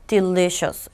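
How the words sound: It is said in a flat, dull voice. The food does not seem tasty. The speaker calls it wrong. "이렇게 말하면 안 맛있는 것 같죠?"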